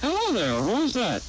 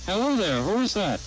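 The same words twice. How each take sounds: First: "Hello there, who is that" swooping very high then dropping; doubled inflection. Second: "Hello there, who is that" with ordinary rise and fall; natural pitch swing on HELLO THERE, WHO IS THAT; normal inflection. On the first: Demonstrator repeating the sentence, doubled swing on "Hello there, who is that". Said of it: "Two-to-one". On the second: Demonstrator repeating the sentence, normal swing on "Hello there, who is that". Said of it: "One-to-one". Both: Shown as a demonstration.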